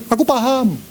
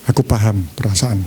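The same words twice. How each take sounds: First: High, dismissive brush-off; insincere, pitched-up acknowledgement; cynical. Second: Low, calm, attentive reply; understanding. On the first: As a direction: toss it off as a distracted, cynical husband. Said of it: "Matanya sinis". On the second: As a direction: say it as a listener who truly understands. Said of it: "Beda gini". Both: Shown as a demonstration.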